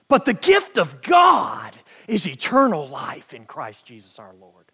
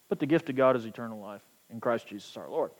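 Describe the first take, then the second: First: It is read in a lively, energetic way. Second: It is read in a flat, lifeless way.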